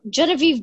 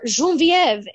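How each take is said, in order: First: The name has an English pronunciation. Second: The name has a French pronunciation.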